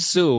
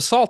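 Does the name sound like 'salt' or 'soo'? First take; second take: soo; salt. First: The name is said like the word soo. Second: The name is said like the word salt. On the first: The speaker calls it right. "You're like, oh, it's Sioux" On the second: The speaker calls it wrong. "I said you're the founder of the Salt Film Festival"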